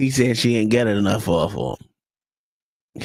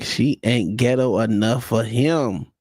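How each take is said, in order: First: Said in the usual way. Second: Slowed down, "ghetto" and "him" leaned on; slow emphatic repeat. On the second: Real, not acted. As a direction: spell it out slowly for the room.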